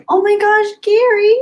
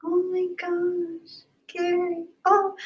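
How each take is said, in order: First: High, loud squeal of surprise; overjoyed surprise. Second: High, soft, slow and breathy with emotion; choked-up awe. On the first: Streamer reacting to a friend's super chat, high delighted squeal. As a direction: squeal his name in delight. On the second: Streamer moved by a friend's kind gift, soft choked-up awe. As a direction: let it catch in your throat. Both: Real, not acted.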